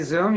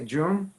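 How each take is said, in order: First: The word starts with a buzzing z sound. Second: The word starts with a j sound. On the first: "You don't say Zoom" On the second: "you say Joom"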